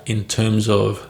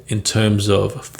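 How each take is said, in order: Both takes have the same delivery.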